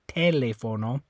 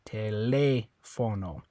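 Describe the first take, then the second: First: The stress is on the first syllable. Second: The stress is on the second syllable. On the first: The speaker calls it wrong. "If you if you were stressing this one" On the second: The speaker calls it right. "the one where you're going to stress it is this one because it has the accent mark"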